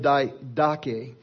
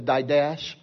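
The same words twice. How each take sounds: First: The word follows its Greek pronunciation. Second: The word follows an English spelling-based reading. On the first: The speaker calls it right. "but it's called the Didache" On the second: The speaker calls it wrong. "try to pronounce it with Texas dialect ... it looks like the Didache"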